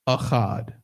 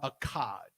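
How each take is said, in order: First: The middle consonant is a throaty ch sound. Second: The middle consonant is a hard k sound. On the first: The speaker calls it right. "It's Achad" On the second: The speaker calls it wrong. "It is not Akkad"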